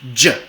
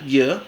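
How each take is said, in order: First: The first sound starts with a brief stop. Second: The first sound is a continuous, frictional y. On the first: "una africada palatal" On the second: "una fricativa palatal"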